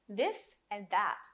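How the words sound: It is said with a native th sound.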